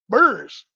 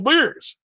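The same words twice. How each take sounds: First: "Beers" said like "burrs"; regional pronunciation. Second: Said in the usual way. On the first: Shown as a demonstration. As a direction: say "Beers" with an r-coloured vowel, as in "burr". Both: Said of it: "You say, "Beers," I say".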